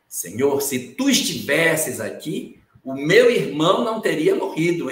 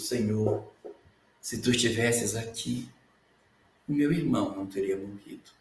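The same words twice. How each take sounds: First: It is said in a reproachful, blaming tone. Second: It is said in a sad, lamenting tone.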